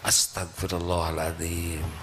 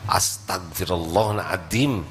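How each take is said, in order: First: It is said in a sorrowful, pleading tone. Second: It is said in an irritated, exasperated tone. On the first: It expresses real regret and asks forgiveness. The speaker calls it right. "Istighfar yang baik itu harus mengandung penyesalan" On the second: It only vents frustration. The speaker calls it wrong. "Kita sering istighfar pada waktu jengkel"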